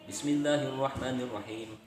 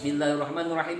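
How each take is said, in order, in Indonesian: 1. Dibaca dengan pelan dan teratur. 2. Dibaca dengan cepat. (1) "mengikuti bacaan Fatihah dengan tartil" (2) "imam baca Fatihah dengan cepat"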